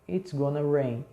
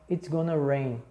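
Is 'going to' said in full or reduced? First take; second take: reduced; reduced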